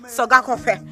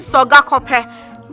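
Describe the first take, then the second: First: The sound before the last vowel is between f and h. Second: The sound before the last vowel is a plain p. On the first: The speaker calls it right. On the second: The speaker calls it wrong.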